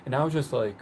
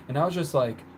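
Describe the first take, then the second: No difference in how they are said.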